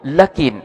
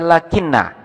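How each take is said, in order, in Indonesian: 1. Kata ini berakhir dengan n tunggal saja. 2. Kata ini berakhir dengan n ganda dan a. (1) "kita baca takhfif, artinya huruf nunnya di sini dibaca sukun" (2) "dibaca lakinna"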